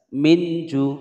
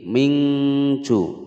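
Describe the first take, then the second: First: The nasal is pronounced as a clear n. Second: The nasal is pronounced as an ng sound. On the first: "dibaca dengan idhar, nunnya dibaca jelas" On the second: "ming mingju pakai ng"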